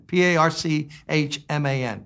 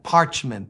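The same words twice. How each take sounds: First: P A R C H M A N spelled letter by letter. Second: Said in the usual way. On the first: Shown as a demonstration. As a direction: spell P A R C H M A N one letter at a time.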